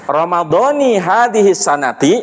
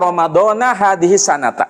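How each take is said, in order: First: Ramadhan ends in i, sanat ends in i. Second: Ramadhan ends in a, sanat ends in a. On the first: "Yang benar ada dua cara" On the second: "Yang benar ada dua cara"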